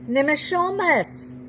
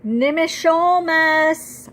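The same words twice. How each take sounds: First: Raised, slow call that falls away; frantic call, falling. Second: High, loud, slow call into the forest; calling out desperately for him; frantic call. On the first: Girl calling great-grandfather again, fading high call. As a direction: call again, less force, trailing down. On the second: Girl searching the woods for great-grandfather, frantic loud call. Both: A narrator's reading. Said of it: "I call frantically".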